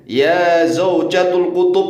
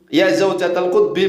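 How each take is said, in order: First: Said with -ul endings and ending in kutub. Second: Said with -al endings and ending in kutbi. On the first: The speaker calls it wrong. "Kemudian lagi ya zaujatul kutub begitu" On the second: The speaker calls it right. "Ya seharusnya ya zaujatal kutbi"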